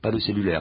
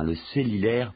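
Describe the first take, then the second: First: The second vowel is a rounded 'u' sound. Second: The second vowel is an 'i' sound. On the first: "Non, pas le cellulaire" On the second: "parce qu'on prononce souvent les U comme des I en Afrique francophone"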